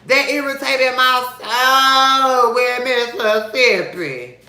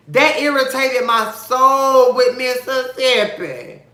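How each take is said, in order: First: Slow high sung version of the line. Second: Said in the usual way. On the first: Shown as a demonstration. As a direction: sing "That irritated my soul with Mississippi" as a slow drawn-out tune. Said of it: "spoken take before". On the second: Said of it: "repeated as a sung line".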